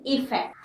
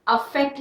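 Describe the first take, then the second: First: इफेक्ट with a clear i at the start, softly; right version, softer. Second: अफेक्ट said with an a sound as the wrong form; wrong version. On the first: Teacher giving the correct form to students, softer. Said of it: "आई से है". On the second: Teacher showing students the wrong form, plainly. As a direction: contrast अफेक्ट, opening on a. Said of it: "अफेक्ट नहीं". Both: Shown as a demonstration.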